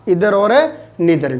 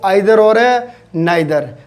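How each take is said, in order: First: The words begin with an 'ee' vowel sound. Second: The words begin with an 'eye' vowel sound. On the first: The speaker calls it right. "Phonetic अपने उच्चारण देखेंगे" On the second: The speaker calls it wrong. "अपने क्या बोलते हैं इसको?"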